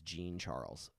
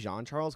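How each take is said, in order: First: The name is said with English pronunciation. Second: The name is said with French pronunciation. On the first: "I think he says" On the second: "that's the correct way in the French French pronunciation"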